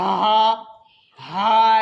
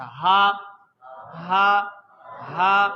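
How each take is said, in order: First: Loud ha pushed hard from the throat; forced ha. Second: "ہا" let out easily, without pushing; an easy ha from low in the throat; relaxed ha. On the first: Teacher showing the children's mistake, forced ha. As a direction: put too much force into "ہا". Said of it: "ایک زور لگاتے ہیں آواز کو". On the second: Teacher showing where the letter comes from, relaxed ha. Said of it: "بالکل آرام سے، اطمینان سے". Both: Shown as a demonstration.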